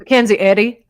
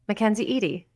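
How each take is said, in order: First: The last name starts with a short 'eh' vowel. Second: The last name starts with a long 'ee' vowel. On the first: The speaker calls it wrong. "I don't like it" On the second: The speaker calls it right. "I like it"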